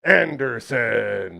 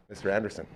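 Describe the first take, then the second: First: Ring announcer. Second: Said in the usual way. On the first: Acted. Wrestling-style name call.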